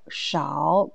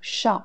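First: "shao" in Mandarin third tone, low dip. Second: "shao" in Mandarin fourth tone, short sharp fall. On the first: Teacher showing learners the word for few, third tone. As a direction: let "shao" sink low and dip, drawn out. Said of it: "quand c'est troisième ton". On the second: Teacher showing learners the second pronunciation, fourth tone. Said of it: "c'est quatrième ton". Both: Shown as a demonstration.

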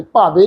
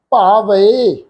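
First: ਭਾਵੇ said "bhaave" as one flat vowel, the wrong way; wrong pronunciation. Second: ਭਾਵੇ said "bhaa-va-e" with a separate final "e"; correct pronunciation. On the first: Teacher shows the wrong reading ਭਾਵੇ people use. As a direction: demo ਭਾਵੇ the incorrect way, a flat ending. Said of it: "ਕਈ ਸੱਜਣ ਭਾਵੇ ਇਸ ਢੰਗ ਨਾਲ ਪਾਠ ਕਰਦੇ". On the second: Teacher models the correct reading ਭਾਵੇ against the wrong one. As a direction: break ਭਾਵੇ into three syllables, ending "e". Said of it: "ਭਾਵੇ ਨਹੀਂ". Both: Shown as a demonstration.

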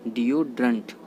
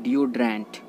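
First: डिओड्रेंट ending in 'drunt'; डिओड्रेंट, last vowel reduced to schwa; correct pronunciation. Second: डिओड्रेंट ending in full 'drent'; डिओड्रेंट with clear e in the last syllable; common mispronunciation. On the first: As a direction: say डिओड्रेंट as 'DIO-drunt'. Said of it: "वो होता है". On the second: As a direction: say डिओड्रेंट as 'dio-DRENT'. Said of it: "डिओड्रेंट नहीं होता है". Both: Shown as a demonstration.

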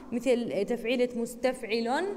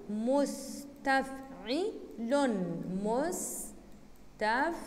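First: Said in the usual way. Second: مستفعل stretched out very slowly, syllable by syllable; scanned slowly. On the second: Shown as a demonstration. Teacher chanting the metre مستفعل for students, drawn out slowly. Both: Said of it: "teacher demos the foot".

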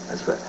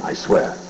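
First: Said in the usual way. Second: Hushed, breathless I swear; whispered oath. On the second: Acted. Comic sneaking confession to the crowd, whispered.

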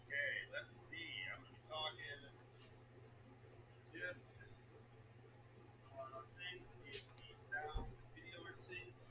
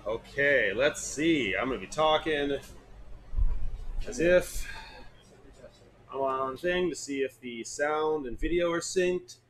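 First: Unvoiced whisper of the test line. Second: Said in the usual way. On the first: Shown as a demonstration. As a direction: breathe the words, no voice.

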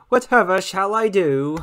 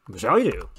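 First: Hammed-up lament, rising at the end; melodramatic host. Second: Said in the usual way. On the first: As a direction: play the helpless damsel. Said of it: "dramatic host then plain repeat". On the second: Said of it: "repeats it in own voice".

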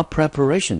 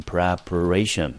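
First: Said in the usual way. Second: "preparation" sounded out syllable by syllable; pronunciation demo. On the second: Shown as a demonstration. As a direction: model "preparation" carefully for learners. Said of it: "我们就念成". (逐音节示范念preparation)

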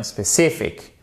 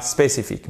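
First: SPÉCIFIQUE as English specific, CI punched; stressed second syllable. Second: SPÉCIFIQUE with even French syllables; French mispronunciation. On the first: Teacher corrects French learners, English stress on CI. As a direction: stress CI and relax the last vowel of SPÉCIFIQUE. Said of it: "mais bien spécifique". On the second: Teacher shows what not to say, French pronunciation. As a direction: say SPÉCIFIQUE fully French, final EE sound. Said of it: "Et pas spécifique". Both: Shown as a demonstration.

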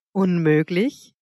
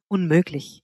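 First: "Unmöglich" drawn out with a rising end; questioning. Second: Said in the usual way. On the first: A narrator's reading. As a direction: stretch "Unmöglich" slowly into a question. Word repeated as incredulous question. („Unmöglich“ gedehnt und fragend, am Ende steigend)

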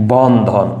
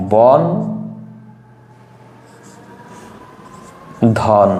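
First: Said in the usual way. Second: "বন", a long pause, then "ধন"; broken into syllables. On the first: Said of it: "উদাহরণ নিলাম হচ্ছে". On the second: Shown as a demonstration. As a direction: split the word into "বন" and "ধন", each syllable on its own. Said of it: "আমরা যদি এটাকে ভাঙি". ("বন" আর "ধন" আলাদা করে, মাঝে লম্বা বিরতি দিয়ে)

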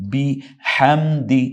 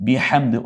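First: বিহামদি drawn out slowly, syllable by syllable; slow careful recitation. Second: Said in the usual way. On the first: Shown as a demonstration. Teacher spells out বিহামদি slowly for students. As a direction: stretch বিহামদি slowly, pressing the throat ha. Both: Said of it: "গলায় চাপ দিয়ে".

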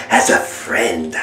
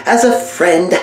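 First: 「as a friend」をぐっと低く、ゆっくり引き伸ばす; スローモーションのような極端に低い声で「as a friend」; slowed deep echo. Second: Said in the usual way. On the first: Acted. Mock breakup speech.

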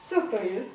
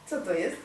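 No difference in how they are said.

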